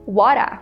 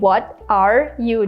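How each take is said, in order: First: The words blend into one short reduced word. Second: Each word is said fully and separately. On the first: "we can just say" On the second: "Instead of saying"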